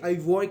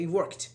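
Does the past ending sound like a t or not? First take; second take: not t; t. First: The ending is not a plain t sound. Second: The ending is a plain t sound. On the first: The speaker calls it wrong. "we don't say I worked" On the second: The speaker calls it right. "We say I worked"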